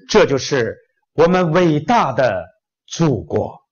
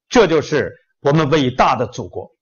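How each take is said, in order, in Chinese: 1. 这是宏大、带有表演色彩的方式。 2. 这是自然、口语化的方式。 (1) "要朗诵呢" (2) "如果演讲说句话怎么说呢"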